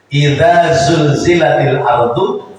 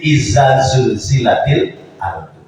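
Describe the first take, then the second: First: The first word has a voiced 'th' sound. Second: The first word has a plain 'z' sound. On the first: The speaker calls it right. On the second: The speaker calls it wrong.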